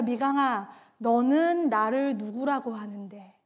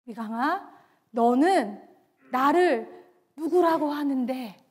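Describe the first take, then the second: First: Soft, low, in one flowing phrase; hushed, low voice of Jesus asking; gentle divine question. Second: "너는", "나를", "누구라고 하는데" set apart by pauses; soft name, then pause before "너는" and "나를"; deliberate gentle question. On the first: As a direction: ask quietly and tenderly, lower than usual. Jesus breaks silence, softly asks her. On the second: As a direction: ask "너는 / 나를 / 누구라고 하는데" piece by piece, low. Repeats Jesus's question phrase by phrase. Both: Retold or imitated.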